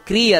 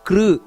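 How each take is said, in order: First: The syllable ends in an ee sound. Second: The syllable ends in a u sound. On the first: The speaker calls it wrong. "ಹೊರತು ಕ್ರೀ ಅಲ್ಲ" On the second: The speaker calls it right. "ಕಾಕಾ ಕಿ ಕಿ ಕೃ ಅಂತ ಬರಬೇಕಲ್ಲಿ"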